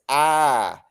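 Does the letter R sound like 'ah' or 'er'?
ah. The letter is said as an open 'ah' sound. "they go no, they go R sounds like this"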